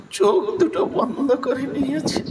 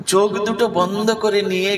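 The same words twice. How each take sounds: First: High voice breaking with tears; choked up. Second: Said in the usual way. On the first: Real, not acted. Narrator overcome by Bidurani's sorrow, tearful breaking voice. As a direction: squeeze the words out through a sob.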